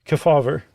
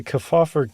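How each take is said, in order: First: "Kefauver" said with a clear v, kuh-FAW-ver; corrected pronunciation. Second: "Kefauver" said with f for v, kuh-FAW-fer; slipped pronunciation. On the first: Host corrects himself on the committee's name, "Kefauver" as kuh-FAW-ver. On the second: Host slips on the committee's name, "Kefauver" as kuh-FAW-fer. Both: Real, not acted. Corrects own slip on the surname.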